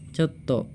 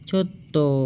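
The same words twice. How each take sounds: First: The word is said short and plain. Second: The word is drawn out long at the end. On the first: It simply means a little amount. "coto yang positif itu hanya coto" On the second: It expresses refusal or a negative response. "intonasinya itu panjang"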